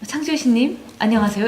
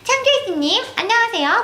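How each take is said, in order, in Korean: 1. 우아하게 말하고 있어요. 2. 귀엽게 말하고 있어요. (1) "엘레강스하게 하면" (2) "귀엽게 가자 이러면은"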